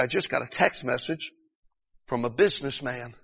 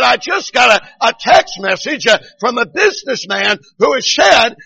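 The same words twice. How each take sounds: First: Said in the usual way. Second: High, loud revival delivery; preacher's retold shouting. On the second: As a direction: retell it as a fervent pulpit shout. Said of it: "He began to shout even more".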